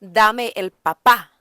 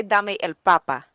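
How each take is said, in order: First: "papá" punched on the last syllable, pa-PA; stress on final PÁ. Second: "papá" stressed on the first syllable, PA-pa. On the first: Teacher showing the word for daddy, final stress on "papá". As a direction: hit the end of "papá" harder. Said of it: "is give me the daddy". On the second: Teacher correcting it to potato, first-syllable stress on "papá". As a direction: let the end of "papá" fall away. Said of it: "We wanna say". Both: Shown as a demonstration.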